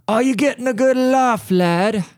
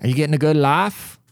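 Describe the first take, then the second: First: High-pitched mock British lad; hammed-up, drawn-up British lad voice; bad British accent. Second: Said in the usual way. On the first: Asking the universe if it's laughing, bad British accent. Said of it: "my British accent is really terrible".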